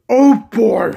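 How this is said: It is said in an evil Mickey Mouse voice. "now I'm going to do Evil Mickey Mouse"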